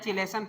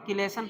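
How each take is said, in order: First: The word begins with a ch sound. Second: The word begins with a k sound. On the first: "या चिलेशन पढ़ो, हम चिलेशन ही पढ़ते हैं" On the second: "किलेशन पढ़ो"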